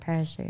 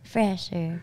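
First: The name begins with a P sound. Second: The name begins with an F sound. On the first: The speaker calls it wrong. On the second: The speaker calls it right.

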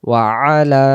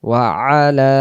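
The two takes are said the same way.

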